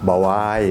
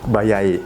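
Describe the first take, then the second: First: A w sound links the two vowels. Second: A y sound links the two vowels. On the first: "ก็เคยได้ยินคนที่อ่านออกเสียงว่า" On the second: "ก็เคยได้ยินคนที่อ่านออกเสียงว่า"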